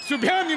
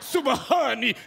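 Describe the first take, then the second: First: It is said 'subhyani' with no separate h sound. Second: It is said 'subahani' with a clear h sound. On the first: The speaker calls it wrong. "सुभ्यानी नाही" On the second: The speaker calls it right.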